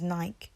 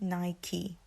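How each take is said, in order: First: The word is said as one syllable. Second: The word is said as two syllables. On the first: This is how many Londoners say it. The speaker calls it wrong. "We pronounce it as Nike" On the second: This is the actual pronunciation. The speaker calls it right. "But it's actually Nike"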